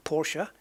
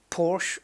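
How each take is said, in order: First: Porsche in two syllables, POR-sha; correct pronunciation. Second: Porsche as one syllable, PORSH; common mispronunciation. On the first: Gamer correcting it, Porsche as POR-sha. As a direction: say Porsche with a final uh. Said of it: "obviously correctly Porsche". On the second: Gamer naming the car the usual way, Porsche as PORSH. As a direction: say Porsche without the final vowel. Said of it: "which is obviously correctly Porsche". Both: Shown as a demonstration.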